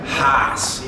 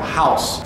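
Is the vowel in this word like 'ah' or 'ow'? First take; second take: ah; ow. First: The vowel is a flat 'ah' sound. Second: The vowel is the standard 'ow' diphthong.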